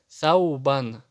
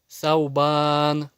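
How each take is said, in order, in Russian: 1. Последняя гласная остаётся краткой. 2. Последняя гласная растягивается и произносится долго. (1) "Спокойно читаешь" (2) "кто-то читает. Нет, это не долгое гласное"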